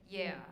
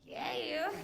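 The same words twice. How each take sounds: First: It is said in her ordinary speaking voice. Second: It is said in a put-on sexy voice.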